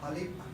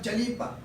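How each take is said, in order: First: The word begins with an H sound. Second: The word begins with a J sound. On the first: The speaker calls it right. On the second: The speaker calls it wrong. "not Jalipa"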